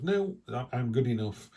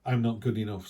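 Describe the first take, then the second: First: I'm good enough with a bright lift on No; mildly hammed-up self-assurance; confident. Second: A touch of deflated self-doubt; mildly defeated, mock-timid. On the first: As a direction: claim it boldly, chin up. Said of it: "She just goes". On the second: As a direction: say it like you're shrinking back into your shell. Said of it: "sometimes we kinda go".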